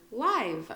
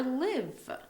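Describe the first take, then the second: First: LIVE with a long I, as in "lie" plus V; LIVE as the adjective, vowel as in "lie". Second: LIVE with a short I, rhyming with "give"; LIVE clearly set apart, vowel as in "sit". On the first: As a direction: say LIVE to rhyme with "five". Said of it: "you say it like you say lie". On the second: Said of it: "and it's live". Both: Shown as a demonstration.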